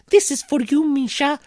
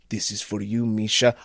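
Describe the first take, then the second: First: It is said in an imitated woman's voice. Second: It is said in a gruff man's voice.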